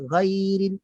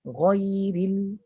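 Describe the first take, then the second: First: GHAIRIL with a thin, open 'ghai'; wrong low articulation. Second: GHAIRIL with a dark, full 'ghoi'; raised articulation. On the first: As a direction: leave the tongue root low on ghairil. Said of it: "Dia tak boleh". (ghairil nipis yang salah) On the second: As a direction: start ghairil from a raised tongue root. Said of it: "pangkal lidah naik atas dulu". (ghairil tebal dari atas) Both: Shown as a demonstration.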